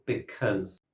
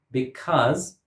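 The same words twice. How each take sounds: First: "because" with a stressed short "uh", be-CUZ; schwa variant. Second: "Because" with a stressed open "ah", be-CAHZ; open-vowel variant. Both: Shown as a demonstration. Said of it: "has a schwa".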